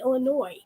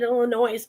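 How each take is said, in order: First: The final S sound is silent. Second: The final S sound is pronounced. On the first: The speaker calls it right. "oh, I'm sorry, Illinois" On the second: The speaker calls it wrong. "I slipped up one time when I was living there and I said Illinois"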